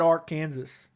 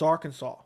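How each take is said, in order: First: The word is pronounced the way it is spelled. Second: The word is pronounced unlike its spelling. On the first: This is how the spelling suggests it. "it really should be said Arkansas" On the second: This is how people actually say it. "but it's Arkansas"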